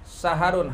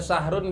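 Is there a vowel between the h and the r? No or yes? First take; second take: yes; no. First: An a vowel separates the h and r. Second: The h runs straight into the r. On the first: "haknya berharokat fathah" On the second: "Bisa dibaca sahrun"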